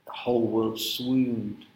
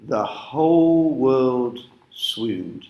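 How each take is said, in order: First: "The whole world swooned" repeated slowly and softer, fading out; a hushed, quieter echo of the line. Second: "The whole world swooned" said very slowly, stretching "whole" and the long ooh of "swooned"; drawn-out wonder. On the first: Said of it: "together with the long ooh sound". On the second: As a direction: linger on each word to show the sense of wonder. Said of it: "the W's there help to create a real sense of wonder". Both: Shown as a demonstration.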